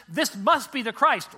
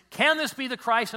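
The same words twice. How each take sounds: First: "this must be the Christ" loud, slow and certain; as a declaration. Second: "Can this be the Christ?" asked as an open question. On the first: Preacher showing the other reading, "this must be the Christ", declarative. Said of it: "It's how you put the emphasis". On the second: Preacher showing translators' reading of "Can this be the Christ?", questioning. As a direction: ask "Can this be the Christ?", raised and wondering. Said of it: "Some as a question". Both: Shown as a demonstration.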